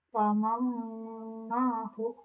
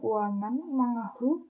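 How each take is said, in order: First: The n merges into a held, nasal m. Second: The n is said clearly before the m. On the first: The speaker calls it right. "tapi wamamahu" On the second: The speaker calls it wrong. "bukan waman mengahu"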